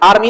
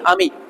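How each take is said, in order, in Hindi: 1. r की ध्वनि साफ़ बोली जाती है। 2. r की ध्वनि साइलेंट रहती है।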